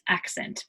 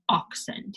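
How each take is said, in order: First: The first vowel sounds like a in at. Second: The first vowel sounds like o in ox. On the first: The speaker calls it right. "No, it's accent" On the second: The speaker calls it wrong. "accent is not oxent"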